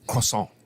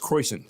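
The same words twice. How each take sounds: First: It is said with a French-style pronunciation. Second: It is said with a plain American pronunciation. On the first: The speaker is cultured and cosmopolitan. "in the cultured area like here in New York, it's it's croissant" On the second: The speaker is from an unsophisticated region. "if you're in if you're in uh, Alabama, it's croissant"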